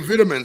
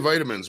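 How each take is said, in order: First: The first syllable sounds like 'vit', British-style. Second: The first syllable sounds like 'vite', American-style. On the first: The speaker calls it wrong. "sometimes some of them say vitamins" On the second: The speaker calls it right. "They don't even say vitamins"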